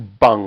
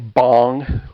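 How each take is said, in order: First: The vowel is a short 'uh' sound. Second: The vowel is an open 'ah' sound. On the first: The speaker calls it right. "it's closer to bung, like a bung for a keg" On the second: The speaker calls it wrong. "a lot of people mispronounce it and say bong"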